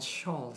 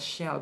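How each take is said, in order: First: The vowel is an 'aw' sound. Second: The vowel is a short 'a' sound. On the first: The speaker calls it wrong. "bukan shawl seperti pada kata all tadi" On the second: The speaker calls it right. "dibaca shall"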